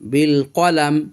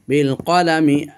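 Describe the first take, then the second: First: It stops on the final m without a vowel. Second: It ends in an i vowel and flows on. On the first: The reciter pauses here. "ওয়াকফ করার জন্য আমরা এই মিমের কাসরাটা পড়ব না" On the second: The reciter continues without pausing. "এখানে না থেমে পড়তে চাই মিলিয়ে"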